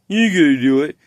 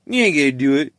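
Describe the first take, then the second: First: The taunt again, pushed louder with a rise on ain't; louder mocking chat. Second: A lightly voiced taunting chat viewer, level; first taunt from the chat, only a hint of mimicry; mocking chat voice. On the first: Quoting the stream chat egging him on, louder mock taunt. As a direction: chat viewer goading harder, a touch more volume. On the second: Quoting the stream chat egging him on, mild mock taunt. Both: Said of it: "your chat is telling you".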